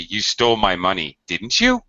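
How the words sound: The voice rises on the tag at the end. The speaker is unsure yet makes an accusation.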